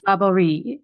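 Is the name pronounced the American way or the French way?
French. The name is said with a French pronunciation. This is how a French speaker would say it. The speaker calls it right. "If we were French, we would do"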